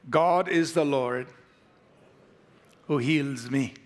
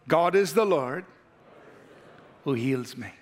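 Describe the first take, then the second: First: It is said plainly, without much conviction. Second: It is said with strong conviction.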